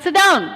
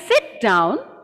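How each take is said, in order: First: It is said in an angry tone. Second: It is said in a calm tone. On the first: The speaker is annoyed with the listeners. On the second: The speaker is relaxed with the listeners. "I'm calm"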